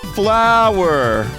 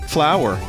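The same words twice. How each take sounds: First: The word is said loudly. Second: The word is said at normal, quiet volume.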